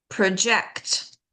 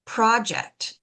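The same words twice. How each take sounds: First: "project" as pro-JECT; weak "pro", strong "JECT" in "project"; second-syllable stress. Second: "project" as PRO-ject; full open "PRO" in "project"; first-syllable stress. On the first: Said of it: "we stress the second syllable". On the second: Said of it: "stress that first syllable". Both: Shown as a demonstration.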